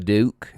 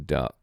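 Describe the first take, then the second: First: The vowel is a northern English sound. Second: The vowel is the standard southern English sound.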